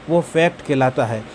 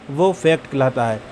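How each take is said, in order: Both takes have the same delivery.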